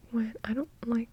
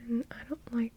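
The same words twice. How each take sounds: The two takes are said the same way.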